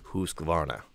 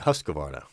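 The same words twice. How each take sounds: First: The name is said with a Swedish pronunciation. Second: The name is said with an English pronunciation. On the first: The speaker calls it right. "she speaks Swedish, and she says Husqvarna" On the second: The speaker calls it wrong. "I grew up saying Husqvarna, which they cringe each time I say that"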